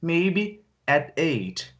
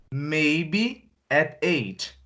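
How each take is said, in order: First: Very slow, stretched reply; slow repeated answer; drawn-out answer. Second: Very slow, stretched reply; slow example answer "Maybe at eight"; drawn-out answer. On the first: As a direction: stretch it out again slowly. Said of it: "Eu não falei". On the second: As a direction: stretch each word out as an answer. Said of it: "Se eu pergunto assim pra você". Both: Acted.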